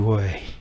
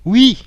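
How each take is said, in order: First: It is said flatly with a low falling pitch. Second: It is said brightly with a high pitch. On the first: The speaker is jaded and tired. "d'une façon blasée, fatiguée, vous dites ouais, c'est bien un accent grave" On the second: The speaker is very happy. "si vous êtes très content, vous dites oui, c'est bien un accent aigu"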